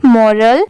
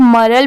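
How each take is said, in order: First: मोरल with a full "mo" vowel, "morul"; correct pronunciation. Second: मरल with a short, dull first vowel, "marul"; मरल, the mistaken way of saying moral; wrong pronunciation. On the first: Teacher giving students the right way, मोरल. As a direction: say मोरल with a clear o. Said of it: "इसे क्या पढ़ा जाता है? मोरल". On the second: Teacher showing students the wrong way, मरल. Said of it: "but वो wrong होता है". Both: Shown as a demonstration.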